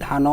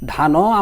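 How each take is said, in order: First: The word ends on the n consonant. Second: The word ends with an added o vowel. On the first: The speaker calls it right. "বলি কি ধান" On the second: The speaker calls it wrong. "ধানও আমরা কখনো বলি না"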